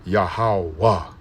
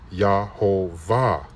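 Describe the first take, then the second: First: The consonant before the last vowel is a W. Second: The consonant before the last vowel is a V. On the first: The speaker calls it right. "the Va, it should be Wa" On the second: The speaker calls it wrong. "which is incorrect"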